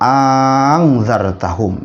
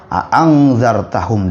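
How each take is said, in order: First: The second glottal stop becomes a long vowel. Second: Both glottal stops are clearly pronounced. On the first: "ya mengganti alif" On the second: "membaca biasa sebagaimana kita membaca a'angzartahum dengan dua hamzah"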